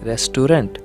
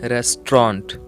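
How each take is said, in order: First: The middle vowels are fully pronounced. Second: The middle vowels are dropped. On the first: The speaker calls it wrong. "मैंने तो गलत कहा।" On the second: The speaker calls it right. "ए और यू लेटर silent रहेगा।"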